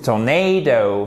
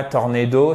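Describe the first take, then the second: First: TORNADO as tor-NAY-do, drawn out; slow TORNADO, leaning on NAY; correct English pronunciation. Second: TORNADO with French r and short vowels; even French-style TORNADO, no long stress; wrong French pronunciation. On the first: Teacher corrects the mistake for students, English pronunciation. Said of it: "c'est tornado". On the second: Teacher shows students the mistake, French-style pronunciation. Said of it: "c'est pas tornado". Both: Shown as a demonstration.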